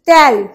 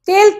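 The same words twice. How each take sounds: First: The vowel is an open, wide e sound. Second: The vowel is a closed e sound.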